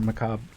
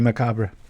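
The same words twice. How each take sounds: First: The word ends with a clipped 'b' sound. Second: The word ends with a clear 'ray' sound. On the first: "Or macabre" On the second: "I always say re"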